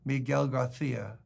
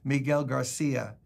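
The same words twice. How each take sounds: First: It is said in a Spain Spanish accent. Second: It is said in a Latin American Spanish accent.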